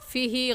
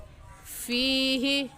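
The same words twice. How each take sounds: First: The vowel is said short, not stretched. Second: The vowel is stretched for one extra beat. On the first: The speaker calls it wrong. "फ़ीही गलत है" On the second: The speaker calls it right. "एक अलिफ की मिकदार खींच कर पढ़ेंगे ... सही है"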